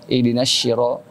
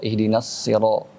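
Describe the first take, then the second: First: The word sira begins with an sh sound. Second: The word sira begins with a heavy s. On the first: The speaker calls it wrong. "pakai sya" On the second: The speaker calls it right. "itu adalah pakai so"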